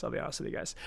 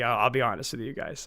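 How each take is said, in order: First: Unvoiced confiding whisper, much softer. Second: Said in the usual way. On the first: Streamer whispers a confession to his viewers. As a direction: lean in and whisper it to chat. Repeats line, second take whispered.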